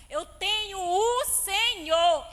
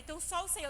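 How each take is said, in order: First: "o Senhor" drawn out loud and slow; stress on O SENHOR. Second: Said in the usual way. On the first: Retold or imitated. Woman correcting her own lonely thought, emphatic stress on "o Senhor". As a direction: declare "Eu tenho o Senhor" slowly, leaning hard on each word. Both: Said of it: "não é só o Senhor".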